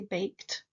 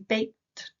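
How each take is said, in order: First: The final t sound is said clearly. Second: The final t sound is dropped in fast speech. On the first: "I don't say baked" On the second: "because I'm saying it quickly"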